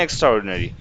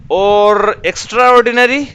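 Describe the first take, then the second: First: Said in the usual way. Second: extra ordinary said higher and louder, ordinary stretched with a rising tune; emphatic teaching stress. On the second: Shown as a demonstration. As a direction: lift ordinary up high and loud to show the word. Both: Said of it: "اس کو کیا بولتے ہیں؟".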